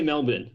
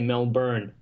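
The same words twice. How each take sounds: First: It is said with an Australian pronunciation. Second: It is said with an American pronunciation. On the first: "I say Melbourne. ... Australian accent, right?" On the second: "So if I was to be American, I'll probably say Melbourne"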